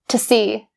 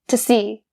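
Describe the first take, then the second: First: The word 'to' is reduced to 'ta'. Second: The word 'to' is reduced to 'ta'.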